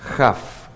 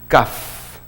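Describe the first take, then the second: First: It begins with a throaty j sound. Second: It begins with a hard k sound. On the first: The letter has no dot inside. "sin Dagesh, ¿cómo se pronuncia? Jaf, como que fuera J" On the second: The letter has a dot inside. "la primera letra con Dagesh es una Kaf"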